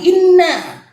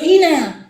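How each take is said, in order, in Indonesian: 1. Bunyi n ditahan lama, dobel. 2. Bunyi n pendek dan tunggal. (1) "huruf nun yang bertasdid" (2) "bukan ina"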